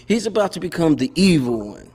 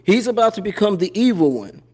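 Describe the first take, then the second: First: Said through a laugh. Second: Said in the usual way. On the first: Real, not acted. Laughing as he repeats the stepfather joke.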